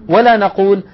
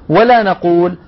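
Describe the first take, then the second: No difference in how they are said.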